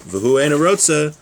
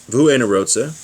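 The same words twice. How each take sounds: The two takes are said the same way.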